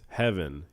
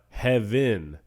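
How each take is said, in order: First: The stress is on the first syllable. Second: The stress is on the second syllable. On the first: The speaker calls it right. "You have the first syllable accented and the second one not accented" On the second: The speaker calls it wrong. "It's not heaven"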